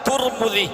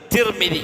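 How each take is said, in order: First: The first two vowels are both u. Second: The first two vowels are both i. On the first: "തു എന്ന് വായിച്ചാൽ തുർമുദി" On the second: "തീ എന്ന് വായിച്ചാൽ മീമിനും കസ്റ്"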